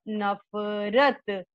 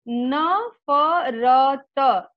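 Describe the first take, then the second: First: नफरत said quickly as one joined word, नफ-रत, falling. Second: Slow, every letter voiced apart as न-फ-र-त; syllable by syllable. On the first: Teacher drilling the children, saying the joined word. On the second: Teacher drilling the children, spelling the word out slowly. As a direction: spell out नफरत slowly, one letter at a time. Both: Shown as a demonstration. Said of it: "एक साथ जोड़ करके".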